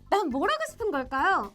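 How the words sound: It is said in a bold, spirited, confident tone. The speaker is boldly tossing the question out. "당찬 친구들은 꼭 그럴까요?"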